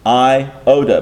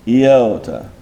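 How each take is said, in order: First: It begins with an 'eye' vowel sound. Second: It begins with a 'y' glide sound. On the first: The speaker calls it wrong. "we're pronouncing this in an English manner" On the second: The speaker calls it right. "when you say the word iota properly in Greek"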